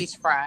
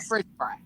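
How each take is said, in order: First: The words are said plainly, without an extra R. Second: The words are said fast with an extra R. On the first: "it never comes out fish fry" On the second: "It comes out fish fry. It's an extra R when people try to say it fast"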